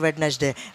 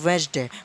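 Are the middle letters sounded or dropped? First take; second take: sounded; dropped. First: Every letter in the middle is sounded out. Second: The middle letters are dropped, giving two syllables. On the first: The speaker calls it wrong. "आमतौर पे सब लोग कहते हैं वेडनेसडे" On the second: The speaker calls it right. "इसको असल में बोला जाएगा वेंसडे"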